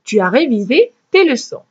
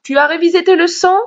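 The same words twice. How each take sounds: First: Falling tune on Tu as révisé tes leçons; teacher demo of a declarative; statement intonation. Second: Higher and fast, rising at the end of Tu as révisé tes leçons?; teacher demo contrasting with a statement; question intonation. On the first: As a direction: say Tu as révisé tes leçons. flat, dropping to a full stop. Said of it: "une phrase déclarative, je vais dire". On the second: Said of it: "quand je veux poser une question, je dis". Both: Shown as a demonstration.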